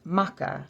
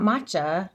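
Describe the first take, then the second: First: "maca" with a hard K; "maca" with K, falling at the end; corrected pronunciation. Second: "matcha" with CH, like the tea; mistaken pronunciation. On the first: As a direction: say "maca" as MAH-kuh. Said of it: "It's maca". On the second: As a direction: say "matcha" as MAH-chuh. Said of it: "not matcha, like green tea". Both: Shown as a demonstration.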